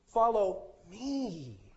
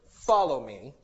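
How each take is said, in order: First: The stress is on me. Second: The stress is on follow.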